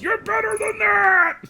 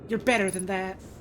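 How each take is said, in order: First: It is said in a Monster Hunter Rise voice. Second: It is said in her normal voice.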